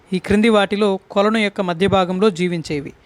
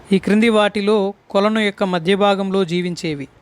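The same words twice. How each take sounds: Both takes have the same delivery.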